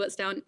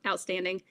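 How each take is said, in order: First: "outstound-" garbled, vowel slides to ound before breaking off; slip of the tongue. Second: Said in the usual way. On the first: Real, not acted. Interviewer asked about grandfather, she stumbles over "outstound-". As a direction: trip over "outstound-" and cut it short.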